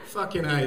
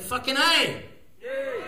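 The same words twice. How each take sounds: First: Said in the usual way. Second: Raised, high celebratory exclamation; triumphant cheer. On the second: Pretend. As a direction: cry it out in triumph, A pitched up high. Celebrating that we made it.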